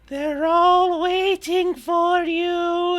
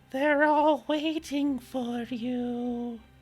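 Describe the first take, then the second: First: The voice is pitched noticeably higher. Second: The voice is pitched relatively low.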